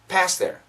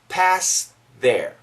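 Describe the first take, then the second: First: Said faster, with no th sound at all. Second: A slight th sound is heard before 'their'. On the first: "the faster we say it, ... There's no T H" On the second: "There's a little bit of T H"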